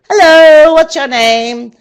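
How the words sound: It is said in a happy, cheerful tone. "Now say it as if you're happy"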